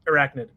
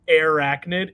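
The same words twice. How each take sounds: First: The first syllable is blurred and not enunciated. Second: Every syllable of the name is clearly enunciated. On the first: This is how the show always said it. "It's always Arachnid. Like it's never enunciated enough" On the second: This is how the name is spelled. "they never pronounced it Arachnid"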